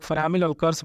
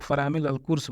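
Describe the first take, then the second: First: "अलकर्स" with a short a, al-kars; variant pronunciation. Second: "अलकुर्स" with a short u, al-kurs; variant pronunciation. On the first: Teacher showing how some say disc brake, variant pronunciation. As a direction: say "फरामिल अलकर्स", last syllable kars. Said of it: "कुछ लोग फरामिल अलकर्स बोलते हैं". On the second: Teacher showing how others say disc brake, variant pronunciation. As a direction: say "फरामिल अलकुर्स", last syllable kurs. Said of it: "कुछ लोग फरामिल अलकुर्स बोलते हैं". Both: Shown as a demonstration.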